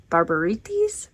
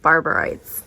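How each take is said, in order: First: "Barbarites" as bar-ba-REE-teez, questioning; unsure pronunciation. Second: "Barbarites" ending like "rights"; first-guess pronunciation. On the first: Reader unsure how to say a title, questioning pronunciation. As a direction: end "Barbarites" in a rising "ee-teez". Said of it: "I don't know how to say this". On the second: Reader tries a manga title aloud, first-guess pronunciation. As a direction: say "Barbarites" as bar-ber-ITES. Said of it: "is that how you say this". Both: Real, not acted.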